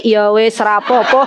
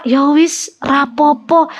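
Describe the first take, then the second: First: Laughing mock acceptance. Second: Mock resigned grandma. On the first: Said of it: "kalau suaminya bilang". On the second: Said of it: "kalau denger apa".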